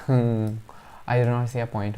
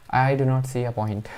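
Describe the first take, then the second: First: Laughing nervously through the words; slow, with a nervous laugh. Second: Said in the usual way. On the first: Real, not acted. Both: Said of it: "It's a nervous laugh".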